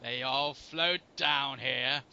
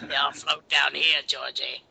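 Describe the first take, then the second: First: Low, very slow creepy voice; creepy quote. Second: Creepy quote. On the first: Quoting a creepy line to the co-host, low and slow. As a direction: draw it out low and eerie. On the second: Echoes the creepy quote, louder. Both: Acted.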